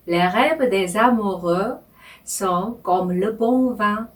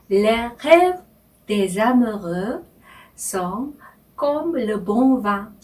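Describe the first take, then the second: First: The French line read slowly in two phrases; Les rêves des amoureux, then sont comme le bon vin, unhurried; slow phrased reading. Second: Each word set apart, Les rêves des amoureux sont comme le bon vin; slow French reading. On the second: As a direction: read the French line slowly, word by word, with pauses. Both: Shown as a demonstration. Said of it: "천천히 제가 읽으면서".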